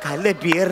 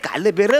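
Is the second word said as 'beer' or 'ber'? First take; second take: beer; ber. First: The second word sounds like 'beer'. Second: The second word sounds like 'ber'. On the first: The speaker calls it wrong. "काल बिअर नाही रे" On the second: The speaker calls it right. "काल बेर म्हणजे"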